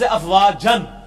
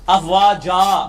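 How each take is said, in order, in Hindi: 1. शब्द -an की आवाज़ पर ख़त्म होता है। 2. शब्द लंबी -a की आवाज़ पर ख़त्म होता है। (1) "लफ्ज अफवाजन" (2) "जीम अलिफ जबर जा बन जाएगा"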